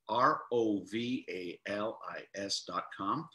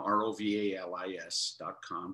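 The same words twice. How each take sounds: First: The letters are spelled out slowly. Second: The letters are spelled out fast.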